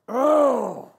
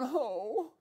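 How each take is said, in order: First: It is a guttural groan of disgust. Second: It is a plain, non-guttural sound.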